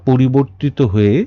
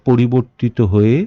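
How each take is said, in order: The two takes are said the same way.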